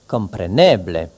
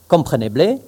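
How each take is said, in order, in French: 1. L'accent tombe sur l'avant-dernière syllabe. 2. L'accent s'écarte de l'avant-dernière syllabe. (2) "on ne dit pas"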